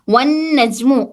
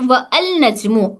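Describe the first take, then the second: First: The article is merged, with no separate 'al'. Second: The article 'al' is said as a separate sound. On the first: The speaker calls it right. "Is pronounce as one नजमु" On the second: The speaker calls it wrong. "Not व अल नजमु"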